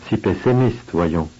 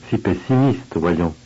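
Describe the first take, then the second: Both takes have the same delivery.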